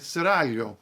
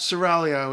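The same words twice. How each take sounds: First: The word is said with Italian pronunciation. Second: The word is said with English pronunciation. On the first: "In Italian, we would say it" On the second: "is fine"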